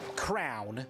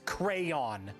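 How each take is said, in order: First: The word is said as one syllable, like crown. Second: The word is said as two syllables, cray-on. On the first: The speaker calls it wrong. "Absolutely one hundred percent wrong" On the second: The speaker calls it right. "It's crayon"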